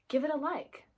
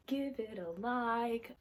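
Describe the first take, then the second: First: Said in the usual way. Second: Slow, stretched words in a put-on voice; playfully drawn out. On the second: Vlogger asks viewers for likes, playfully drawn out. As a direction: draw each word out playfully.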